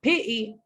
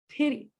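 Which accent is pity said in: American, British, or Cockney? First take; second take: Cockney; American. First: The t is replaced by a glottal stop. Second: The t is a quick, light tongue tap. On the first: The speaker calls it wrong. "It's not pity, bottle. That's Cockney English" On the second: The speaker calls it right. "It's a small tap"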